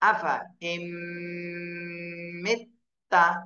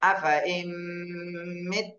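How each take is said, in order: First: The phrase ends with a final vowel sound. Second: The phrase ends on a bare consonant sound. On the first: The reading continues without stopping. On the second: The reader stops at this word.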